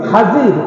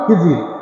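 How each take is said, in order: First: The first vowel is an 'a' sound. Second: The first vowel is an 'i' sound. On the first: This is the original Arabic form of the name. "খাজির উচ্চারণটা হচ্ছে কি খাজির।" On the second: This is the common local form of the name. "আপনারা বলেন খিজির"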